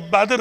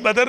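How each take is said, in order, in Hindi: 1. d और r बिना किसी स्वर के जुड़े हुए हैं। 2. d और r के बीच एक स्वर सुनाई देता है। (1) "ये बद्र है" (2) "बदर गलत है"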